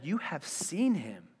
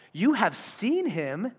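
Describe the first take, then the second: First: Slow, softened verse reading; measured scripture reading. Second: Slow, higher, drawn-out "You have seen him"; emphatic repeat. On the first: Preacher reading Jesus' words to the congregation, measured. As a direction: read it slowly, letting it sit. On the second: Preacher repeats Jesus' words for weight, slow and emphatic. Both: A narrator's reading.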